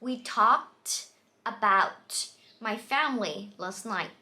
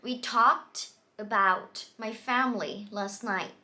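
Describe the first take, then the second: No difference in how they are said.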